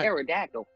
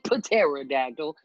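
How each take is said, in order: First: The initial P is silent; it starts with T. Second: The initial P is pronounced before the T. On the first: The speaker calls it right. "You say right. pterodactyl" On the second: The speaker calls it wrong. "don't say pterodactyl"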